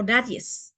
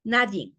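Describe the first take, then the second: First: "nadies" with an added final s; teacher showing the regional "nadies"; wrong form. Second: Said in the usual way. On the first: Shown as a demonstration. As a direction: say "nadies", stressing the extra s. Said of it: "se aumenta la S". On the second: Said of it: "se escucha mucho".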